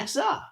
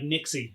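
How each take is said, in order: First: The name ends with an 'uh' sound. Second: The name ends with an 'ee' sound. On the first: The speaker calls it right. "it's, Nixa" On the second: The speaker calls it wrong. "Because it's not Nixie"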